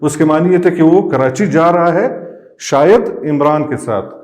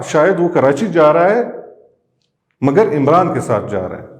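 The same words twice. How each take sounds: First: "है" rising, then a pause, then "शायद इमरान के साथ"; pause before "शायद". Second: "है" rising, then a pause before "मगर इमरान के साथ". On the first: Teacher showing the comma placed before "शायद". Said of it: "जब हम यहाँ पे हमने कॉमा पुट किया". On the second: Teacher showing the comma moved to the other place. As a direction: break after "Karachi जा रहा है". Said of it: "मगर यहाँ पे". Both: Shown as a demonstration.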